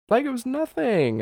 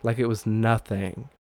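First: Very high, squeaky mock voice; playful high-pitched echo; exaggerated repeat. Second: Said in the usual way. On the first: Shown as a demonstration. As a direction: push the phrase way up high for comic effect.

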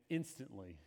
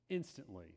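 The two takes are said the same way.

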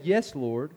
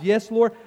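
First: Humble reply. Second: Higher and louder, a firm yes; confident answer. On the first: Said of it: "she responds with great humility". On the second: Woman answering Jesus with a firm, loud yes. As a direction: say it boldly and assured. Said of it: "She responds". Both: Retold or imitated.

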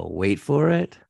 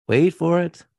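First: Teasing build-up. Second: Higher and louder build-up; rising suspense. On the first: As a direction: hold them in suspense. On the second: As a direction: ramp up the suspense. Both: Shown as a demonstration.

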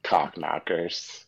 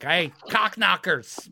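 First: Slow repeat. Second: Shouted insult. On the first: Shown as a demonstration. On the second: Retold or imitated. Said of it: "the guy's like".

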